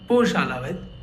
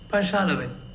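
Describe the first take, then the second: First: The first vowel sounds like a full O. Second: The first vowel sounds like A. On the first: The speaker calls it wrong. "It's not Poshalavit" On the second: The speaker calls it right. "but Pashalavit"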